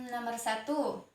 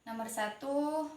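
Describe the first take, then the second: The two takes are said the same way.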